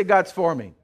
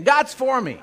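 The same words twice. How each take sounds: First: Said in the usual way. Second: Louder and higher, with conviction; mean every word; said like you mean it. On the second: Shown as a demonstration. Congregation told to mean it, louder conviction. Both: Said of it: "say it like you mean it".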